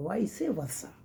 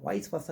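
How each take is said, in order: First: Vice versa with vice in two syllables, 'vai-see'; corrected vice versa. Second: Vice versa with vice as one syllable, 'vais'; mispronounced vice versa. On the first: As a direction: teach vice versa as 'vai-see-varsa'. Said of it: "not vice". (vice versa का सही उच्चारण, 'वाइसी वर्सा') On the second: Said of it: "नहीं, गलत है". (vice versa का गलत उच्चारण, 'वाइस वर्सा') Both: Shown as a demonstration.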